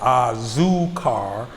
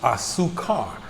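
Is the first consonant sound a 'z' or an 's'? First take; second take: z; s. First: The first consonant is a buzzing z sound. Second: The first consonant is a hissing s sound. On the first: The speaker calls it wrong. "I would always pronounce the Z sound" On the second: The speaker calls it right. "the Z's tend to make uh, S sounds"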